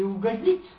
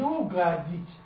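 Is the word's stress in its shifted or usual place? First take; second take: usual; shifted. First: The stress falls in its usual place. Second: The stress is moved to another syllable. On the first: To please someone. "Или угодить, сделать приятное" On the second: To cause all sorts of mischief. "только там ударение перенести, получится угодить"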